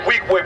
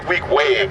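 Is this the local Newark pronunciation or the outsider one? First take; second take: local; outsider. First: It is pronounced the way Newark locals say it. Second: It is pronounced the way people outside Newark say it. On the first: This is how people from Newark say it. The speaker calls it right. "We say Weequahic" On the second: This is how people outside Newark say it. The speaker calls it wrong. "We don't say Weequahic"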